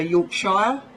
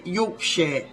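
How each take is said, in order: First: "Yorkshire" ending SHY-er; imitated American pronunciation. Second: "Yorkshire" ending in a light "sheer"; English pronunciation. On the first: English speaker guessing America's reading, "Yorkshire" as york-SHY-er. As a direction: rhyme the end of "Yorkshire" with "fire". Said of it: "would say Yorkshire". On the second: English speaker showing how we say it, "Yorkshire" as YORK-sheer. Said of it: "we say Yorkshire". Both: Shown as a demonstration.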